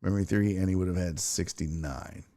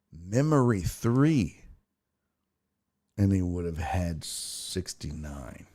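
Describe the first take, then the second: First: Said in the usual way. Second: Slow and deliberate, soft at the end; drawn-out reading of a baffling message; slow puzzled reading. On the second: Real, not acted. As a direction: spell it out word by word, baffled. Reads garbled message again, slowly.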